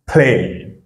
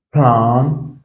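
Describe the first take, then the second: First: "plane" with the English ay vowel, falling; long A. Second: "plan" with an open ah vowel; short A. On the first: Teacher drills the long sound, ay in "plane". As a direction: say "plane" like the letter name A. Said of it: "c'est son son qui est long". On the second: Teacher drills the short sound, open a in "plan". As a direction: say "plan" with a French-like a, pitched up. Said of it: "c'est le son qui est court". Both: Shown as a demonstration.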